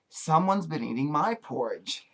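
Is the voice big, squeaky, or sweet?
sweet. It is said in a sweet little voice. "in her sweet little voice"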